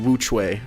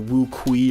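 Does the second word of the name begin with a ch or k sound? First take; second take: ch; k. First: The second word begins with a ch sound. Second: The second word begins with a k sound. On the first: The speaker calls it right. "But it's actually pronounced the Wu Chui" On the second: The speaker calls it wrong. "I was calling it like the Wu Kui or something like that"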